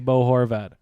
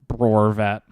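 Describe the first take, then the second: First: The two words are said clearly and separately. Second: The two words are mumbled together into one.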